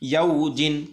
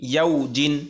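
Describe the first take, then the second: No difference in how they are said.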